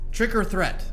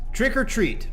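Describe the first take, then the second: First: The last word starts with a thr sound. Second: The last word starts with a plain t sound. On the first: The speaker calls it wrong. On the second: The speaker calls it right.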